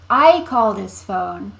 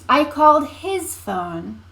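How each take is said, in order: First: The stress falls on the word I. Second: The stress falls on the word his. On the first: It was me who made the call. "You're emphasizing who called the phone in that one" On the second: It was his phone, not someone else's. "You called Sarah's phone? No"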